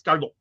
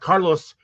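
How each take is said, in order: First: The s in the middle is swallowed. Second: The s in the middle is clearly pronounced. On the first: "Swallowed S's in the middle" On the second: "it's not Carlos"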